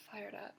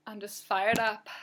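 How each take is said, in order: First: Much softer fired up, said to herself; quiet fired up echo. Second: Fired up. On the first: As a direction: drop it to a murmur. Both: Real, not acted.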